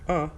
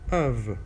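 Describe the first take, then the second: First: A weak schwa vowel with no v sound. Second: A weak schwa vowel followed by a v sound. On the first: The next word starts with a consonant. "without the V sound" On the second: The next word starts with a vowel. "schwa, v"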